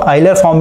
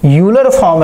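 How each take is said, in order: First: The name begins with an 'eye' sound. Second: The name begins with a 'you' sound.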